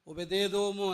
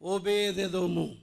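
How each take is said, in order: First: The long vowels in the name are shortened. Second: The long vowels in the name are kept long. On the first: The speaker calls it wrong. "దీర్ఘాలు అవన్నీ కొన్నిసార్లు పోతాయి. ఓబేదెదోము అని కొంతమంది అంటారు" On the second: The speaker calls it right. "Right"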